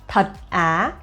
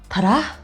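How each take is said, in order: First: It is said flatly, as if read aloud. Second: It is said as a surprised spoken reaction.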